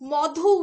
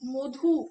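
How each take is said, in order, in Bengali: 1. প্রথম স্বরধ্বনিটি একটি খোলা 'aw' ধ্বনি। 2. প্রথম স্বরধ্বনিটি একটি গোলাকার 'oh' ধ্বনি। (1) "মধু উচ্চারণ না করে" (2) "আমরা করি মধু ... অয়ের বদলে ও উচ্চারিত হচ্ছে"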